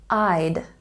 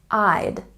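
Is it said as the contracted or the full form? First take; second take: contracted; contracted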